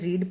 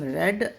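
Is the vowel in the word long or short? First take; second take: long; short. First: The vowel is a long 'ee' sound. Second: The vowel is a short 'e' sound. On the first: It is the present form of the verb. "रीड पढ़ते हैं first form को" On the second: It is the past form of the verb. "Second form को हम रेड"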